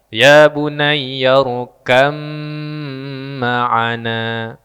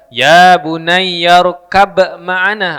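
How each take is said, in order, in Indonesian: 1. Bunyi b menyatu menjadi m yang panjang dan bersengau. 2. Bunyi b dilafalkan sebelum m. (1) "Huruf ba-nya dibuang... Mimnya bertasydid... didengungkan tiga harokat" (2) "jangan dibaca"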